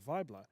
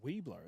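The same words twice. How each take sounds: First: The name begins with a V sound. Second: The name begins with a W sound. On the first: The speaker calls it right. "like a German pronunciation, like Weibler, but but V" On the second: The speaker calls it wrong. "we thought it was Weibler"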